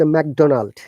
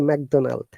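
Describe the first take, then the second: First: It is said with a clear English D. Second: It is said with a French-like altered D. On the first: The speaker calls it right. "they cannot say McDonald" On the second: The speaker calls it wrong. "They say McDonald"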